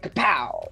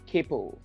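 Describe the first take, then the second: First: The name is said forcefully, with punch. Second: The name is said weakly, without punch. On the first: The speaker calls it right. "you really need to put that effort into it" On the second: The speaker calls it wrong. "they mispronounce it"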